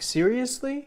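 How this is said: The voice rises at the end.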